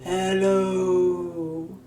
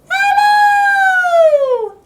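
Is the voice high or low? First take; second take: low; high. First: It is said in a very low voice. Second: It is said in a very high voice.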